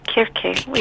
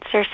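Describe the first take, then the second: First: The name begins with a K sound. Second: The name begins with an S sound. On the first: "in Greek you have to pronounce it Kirke" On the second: "I was calling it Circe as well"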